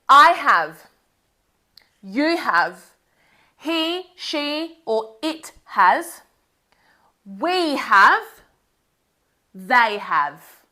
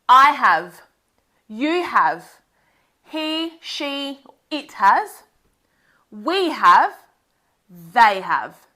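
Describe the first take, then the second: First: It is said at a normal pace. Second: It is said a little faster.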